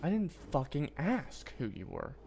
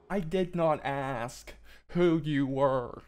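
First: Said in the usual way. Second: Very slow, every word pressed; slow, deliberate scolding; slow emphatic. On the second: Real, not acted. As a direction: spell it out word by word. Repeats it slowly for emphasis.

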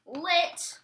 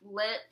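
First: Excited. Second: Said in the usual way. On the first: Retold or imitated. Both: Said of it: "I was like".

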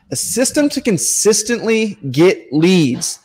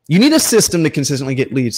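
First: Lifted pitch, drawn out to stress system; slow emphatic point. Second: Said in the usual way. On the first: Shown as a demonstration. Coach stressing his key point slowly. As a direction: spell it out slowly to the sellers so it sinks in.

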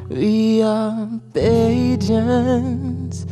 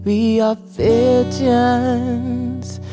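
Both takes have the same delivery.

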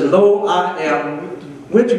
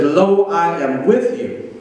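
First: "Lo, I am with you" slow, stress on "with"; slow emphasis. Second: "Lo, I am with you" drawn out slowly, leaning on "with"; slow emphasis. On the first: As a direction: repeat it slowly, weight on "with". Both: Real, not acted. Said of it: "I want you to get here".

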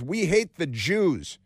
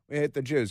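First: Slow, every word weighted, stress on hate; mock headline read. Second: Said in the usual way. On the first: Shown as a demonstration. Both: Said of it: "That's their headline".

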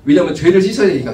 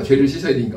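First: Emphatic. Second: Said in the usual way. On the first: Acted. Preacher stresses need to repent.

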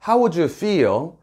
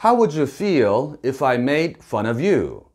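First: Slow but linked as one chunk; smooth one-breath chunk. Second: Very slow, carefully linked English; slow model reading. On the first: Teacher showing one smooth chunk for learners. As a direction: run the words together smoothly. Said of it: "한 번에 매끄럽게 읽으시고요". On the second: Teacher slowing the phrase to show linking. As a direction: read it slowly for the learners. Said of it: "끊어읽기와 발음을 좀 따져보도록". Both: Shown as a demonstration.

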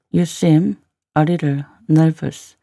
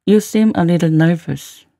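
First: Careful phrase-by-phrase model reading. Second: Said in the usual way. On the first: Shown as a demonstration. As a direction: break it up for learners. Teacher repeats line in slow chunks.

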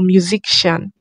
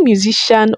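First: Musician said as "myu-zik-shan"; musician with k sound. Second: Musician said as "myu-zi-shan"; musician without k. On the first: Creator asks which is right, musician as "myu-zik-shan". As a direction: put a hard k before "shan" in musician. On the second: Creator asks which is right, musician as "myu-zi-shan". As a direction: leave any k out of musician, "zi-shan". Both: Shown as a demonstration. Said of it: "Is it musician or musician?".

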